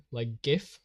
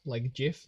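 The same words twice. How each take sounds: First: "gif" with a hard G, as in gift; "gif" rising, hard G sound. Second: "gif" with a soft J sound, as in jiff; "gif" with a J sound and a slight rise. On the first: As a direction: say "gif" with a hard G and a questioning rise. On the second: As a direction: say "gif" like jiff, softly questioning. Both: Shown as a demonstration. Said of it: "you pronounce it like gif".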